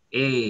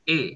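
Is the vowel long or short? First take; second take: long; short. First: The vowel is held longer. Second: The vowel is held briefly. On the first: "Panjang ya" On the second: "pendek ya"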